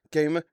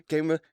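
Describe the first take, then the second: No difference in how they are said.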